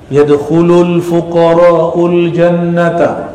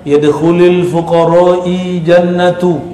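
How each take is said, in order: First: The middle word ends in a u vowel. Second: The middle word ends in an i vowel. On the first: The speaker calls it right. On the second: The speaker calls it wrong.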